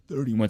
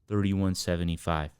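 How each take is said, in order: First: It is said strongly, with force. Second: It is said casually, without force.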